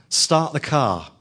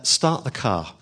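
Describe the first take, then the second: First: Slow, firmer and a bit louder; a little louder. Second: Said in the usual way. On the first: Retold or imitated. Preacher retelling friend urging taxi driver, slower and louder. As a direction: press the words a little harder. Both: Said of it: "a little bit louder".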